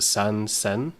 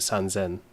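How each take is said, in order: First: The second part begins with an S sound. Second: The second part begins with a Z sound. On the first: The speaker calls it wrong. "it doesn't roll off the tongue as easily" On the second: The speaker calls it right. "which is a bit smoother"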